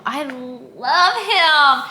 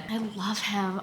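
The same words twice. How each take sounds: First: Slow, drawn-out swoon over love. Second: Said in the usual way. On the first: Real, not acted. Reader swooning over her book boyfriend, slow and drawn out. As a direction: melt as you say it, dragging each word out. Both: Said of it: "Take a shot every time I say I love him".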